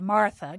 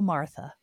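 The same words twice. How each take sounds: First: The name is said in a scolding tone. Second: The name is said in a tender tone. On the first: The person is being rebuked. "I've tended to view it as a scolding thing" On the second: The person is being drawn in with compassion. "this tender, like you said, and this compassionate"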